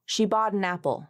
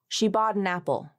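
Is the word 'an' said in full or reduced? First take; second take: reduced; reduced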